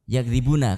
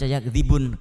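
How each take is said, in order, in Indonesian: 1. Kata ini berakhir dengan bunyi vokal. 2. Kata ini berakhir dengan konsonan, vokalnya dihilangkan. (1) "di akhirat yakdzibuna" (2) "Karena ada sukun palsu di situ"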